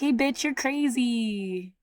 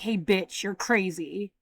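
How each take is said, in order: First: It is said playfully, like between friends. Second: It is said with real hostility.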